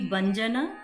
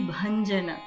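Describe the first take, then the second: First: The word begins with a plain unaspirated b. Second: The word begins with a stressed, aspirated bh. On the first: The speaker calls it wrong. "it should not be Banjana" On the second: The speaker calls it right. "it should be Bhanjana. So that bha, we should add a stress"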